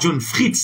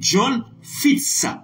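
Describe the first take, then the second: First: An r sound follows the f. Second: No r sound follows the f. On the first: The speaker calls it wrong. "C'est pas John Fritz" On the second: The speaker calls it right. "c'est John Fitz. Voilà, Fitz, F I T Z"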